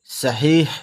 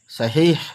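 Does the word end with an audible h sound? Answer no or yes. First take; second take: yes; yes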